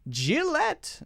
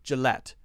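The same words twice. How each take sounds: First: The first vowel is a clear 'i' sound. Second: The first vowel is a reduced schwa sound. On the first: The speaker calls it wrong. "We don't say Jill, Jill, Gillette" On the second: The speaker calls it right. "we say the schwa"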